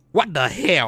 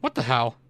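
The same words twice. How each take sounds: First: Put-on Vietnamese accent, louder, higher. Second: Said in the usual way. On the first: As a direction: mimic a Vietnamese coworker. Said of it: "Sound like my Vietnam".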